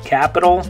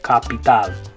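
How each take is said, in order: First: The two a-vowels sound different. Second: Both a-vowels are an open 'ah'. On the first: "In English, capital. ... the two A's in that word make different sounds in English" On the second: "In Spanish, capital. ... in Spanish, they're both going to say ah"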